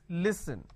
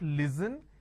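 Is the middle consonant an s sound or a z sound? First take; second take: s sound; z sound. First: The middle consonant is an s sound. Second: The middle consonant is a z sound. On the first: The speaker calls it right. "it's listen" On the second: The speaker calls it wrong. "They replace the s with a z ... It's not listen"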